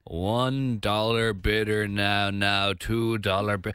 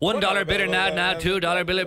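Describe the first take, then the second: First: The phrase is said at a slower pace. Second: The phrase is said at a faster pace. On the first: "it's literally like" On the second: "then you just got to say it faster"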